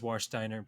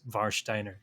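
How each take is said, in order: First: The name is said with English sounds. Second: The name is said with German sounds. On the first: "the English pronunciation is" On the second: "the German pronunciation is"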